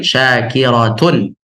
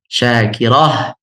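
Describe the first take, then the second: First: The word ends in -atun, with the final vowel. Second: The word ends in -ah, with no vowel after.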